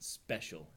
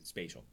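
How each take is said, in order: First: The word is said the Israeli way, like 'special'. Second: The word is said plainly, with a clear 'spatial' vowel. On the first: The speaker calls it wrong. "Not special, as they pronounce it in Israel" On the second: The speaker calls it right. "but really spatial"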